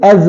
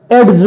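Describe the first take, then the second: First: "एज" said ej, no separate d; silent D. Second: "एज" said as ed-j, d heard; sounded D. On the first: Teacher giving the correct edge, silent D. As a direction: go straight to the j in "एज". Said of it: "एज बोलते हैं". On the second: Teacher showing the wrong edge, sounded D. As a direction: put a hard d before the j in "एज". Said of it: "एज नहीं पढ़ते". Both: Shown as a demonstration.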